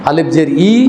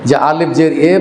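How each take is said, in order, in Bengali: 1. শেষের স্বরধ্বনিটি i-এর মতো শোনায়। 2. শেষের স্বরধ্বনিটি e-এর মতো শোনায়। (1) "একারের জায়গায় এখন কি হিস্সি পড়ি আমরা" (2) "তখন আমরাও পড়েছি যেভাবে"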